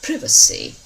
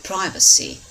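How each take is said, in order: First: It is said with a British pronunciation. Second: It is said with an American pronunciation.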